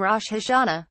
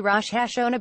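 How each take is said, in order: First: "Rosh Hashanah" said as rosh ha-sha-NA; Israeli pronunciation. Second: "Rosh Hashanah" said as rosh ha-SHO-no. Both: Shown as a demonstration.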